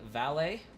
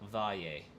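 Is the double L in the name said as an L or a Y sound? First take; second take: L sound; Y sound. First: The double L is said as an L sound. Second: The double L is said as a Y sound.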